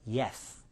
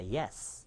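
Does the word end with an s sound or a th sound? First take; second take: th; s. First: The final sound is a lisped th, tongue out. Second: The final sound is a clear s, tongue in. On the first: The speaker calls it wrong. "그런데 이렇게 발음하시는 분이 있어요" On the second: The speaker calls it right. "Yes 할 때는 혀가 나면 안 됩니다"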